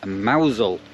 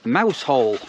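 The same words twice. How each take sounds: First: It is said differently from its spelling. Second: It is said just as it is spelled. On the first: This is how the name is really said. The speaker calls it right. "but you actually pronounce it Mousehole" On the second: This is how the spelling reads. The speaker calls it wrong. "that's spelt Mousehole"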